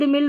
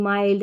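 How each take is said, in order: First: The vowel is a short 'ih' sound. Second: The vowel is a long 'eye' sound. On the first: The speaker calls it wrong. "नहीं पढ़ेंगे" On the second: The speaker calls it right. "ऐसे पढ़ेंगे"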